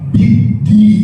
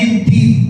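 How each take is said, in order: First: The doubled consonant is a clear, held d. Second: The first doubled consonant sounds like a t. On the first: The speaker calls it right. "tapi biddin. Dalnya jelas" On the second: The speaker calls it wrong. "bukan biddin"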